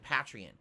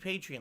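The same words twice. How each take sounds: First: The first syllable sounds like 'pat'. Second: The first syllable sounds like 'pay'. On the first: It is how most people say it. The speaker calls it wrong. "most people pronounce it Patreon" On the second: It echoes the word for a supporter of the arts. The speaker calls it right. "It should be Patreon, like you're a patron of the art"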